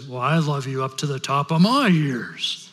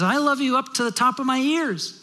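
First: Put-on outdo the child in a big-daddy voice; father rabbit. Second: Put-on high, eager bunny child voice; little kid rabbit. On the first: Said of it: "And the father rabbit says". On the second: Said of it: "the little kid rabbit says to his dad".

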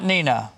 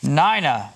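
First: Nina said NEE-nuh; rejected pronunciation. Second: Nina said NYE-nuh; pronunciation key. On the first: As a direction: say Nina with a long EE in the first syllable. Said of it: "not Nina". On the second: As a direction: say Nina with a long I, rhyming with China. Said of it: "they gave me a pronunciation key". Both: Shown as a demonstration.

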